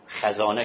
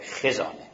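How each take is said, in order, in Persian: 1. مصوت اول، صدای باز a است. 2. مصوت اول، صدای کوتاه i است. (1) "خزانه که ما میگیم اشتباهه" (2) "خه به کسره"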